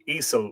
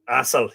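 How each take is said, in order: First: The name begins with an 'eh' vowel. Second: The name begins with an 'ah' vowel. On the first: The speaker calls it wrong. "Esel, we'll call it" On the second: The speaker calls it right. "yes, it's pronounced Assel"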